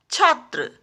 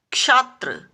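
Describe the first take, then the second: First: Said in the usual way. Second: क्षात्र opening with "ksh"; छात्र misspoken as क्षात्र; mispronounced. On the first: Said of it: "सही शब्द होता है". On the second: Shown as a demonstration. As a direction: start क्षात्र on क्ष, not छ. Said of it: "क्षात्र नहीं होता".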